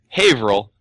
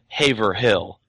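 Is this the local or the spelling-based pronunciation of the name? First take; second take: local; spelling-based. First: The name has the shortened local pronunciation. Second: The name is said the way it is spelled. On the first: This is how the town is actually called. "we have a town called Haverhill" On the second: This is how the name is written. "but it's actually spelled Haverhill"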